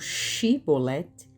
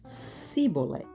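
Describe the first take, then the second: First: The word begins with a 'sh' sound. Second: The word begins with an 's' sound. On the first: This is how the Gileadites said it. "os galaaditas pronunciavam shiboleth" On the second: This is how the Ephraimites said it. "e os efraimitas siboleth"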